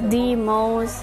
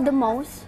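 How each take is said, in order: First: The phrase is said slowly with a full article. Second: The phrase is said quickly with a reduced article. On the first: "Lamun pelan sehingga kengeja teh the most" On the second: "kalau cepat mah the most"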